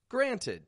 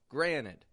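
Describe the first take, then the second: First: The middle T sound is clearly pronounced. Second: The middle T sound is dropped. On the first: "It's spelled granted" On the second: "the pronunciation that I'm using right now"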